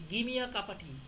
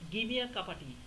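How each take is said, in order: First: The words are reduced and run together. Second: The same.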